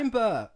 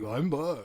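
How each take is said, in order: First: It is said in his own natural voice. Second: It is said in a put-on low voice.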